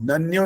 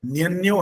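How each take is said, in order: First: The word begins with a plain 'na' sound. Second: The word begins with a palatal 'nya' sound. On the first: The speaker calls it wrong. "नन्यो नहीं है" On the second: The speaker calls it right. "न्यन्यो है"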